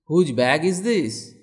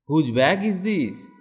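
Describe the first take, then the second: No difference in how they are said.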